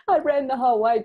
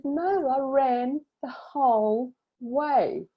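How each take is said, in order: First: High, loud retold elation; quicker, louder burst of emotional triumph; jumping, crying elation. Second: High, drawn-out retold triumph; slow, high emotional proclamation; tearful triumph. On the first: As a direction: blurt it high and loud, overjoyed. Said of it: "jumping up and down, crying". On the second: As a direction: stretch each word out high, overcome with emotion.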